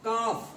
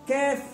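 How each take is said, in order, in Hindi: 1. स्वर लंबा और खुला 'aa' है। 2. स्वर थोड़ा सपाट 'ai' जैसा है। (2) "कैफ नहीं"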